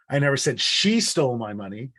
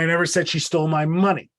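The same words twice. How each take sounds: First: The word 'she' carries the main stress. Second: The word 'money' carries the main stress. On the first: Someone else took it. "It wasn't her, it was them" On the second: Something more than the money was taken. "it wasn't the money, it was my whole wallet that was stolen"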